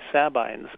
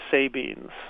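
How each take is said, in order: First: It starts like 'cab' and ends like 'wine'. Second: It starts like 'say' and ends like 'beans'. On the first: The speaker calls it right. "Sab, like cab, ... Ein, as long like in wine" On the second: The speaker calls it wrong. "like S-A-Y and part of soybeans"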